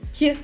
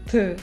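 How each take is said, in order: First: The t is soft, with a higher pitch. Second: The t is hard, with a lower pitch. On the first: "their baby versions like d, t" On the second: "a dull and serious d, t"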